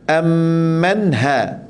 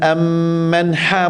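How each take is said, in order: First: The h is a light, breathy sound. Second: The h is a harsh, throaty sound. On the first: The speaker calls it right. "macam tu" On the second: The speaker calls it wrong. "ha pedas tak boleh"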